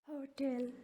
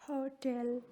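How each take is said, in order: Both takes have the same delivery.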